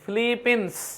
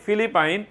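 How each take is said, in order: First: The name ends with a short 'pins' sound. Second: The name ends with a long 'pine' sound. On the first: This is the form international media use. "তারা বলে ফিলিপিন্স" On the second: This is the local everyday form of the name. "আমরা বলি ফিলিপাইন"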